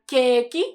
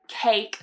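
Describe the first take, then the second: First: It has a flat vowel and an extra final vowel. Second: It has a diphthong and ends on a consonant. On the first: The speaker calls it wrong. "So don't say keiki" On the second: The speaker calls it right. "make sure you're using the diphthong"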